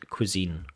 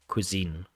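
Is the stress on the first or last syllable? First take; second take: last; last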